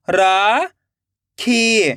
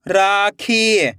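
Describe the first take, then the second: First: राखी split into रा, long pause, खी; rising रा, then falling खी; syllable by syllable. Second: rakhi joined as one slow word; blended word. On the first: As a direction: sound out rakhi very slowly in two parts. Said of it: "एक एक अक्षर का उच्चारण करना है". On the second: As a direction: read rakhi whole, falling at the end. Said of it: "खींच के पढ़ना है". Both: Shown as a demonstration.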